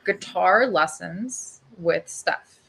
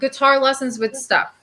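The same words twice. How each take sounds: First: It is said more slowly. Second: It is said at normal speed.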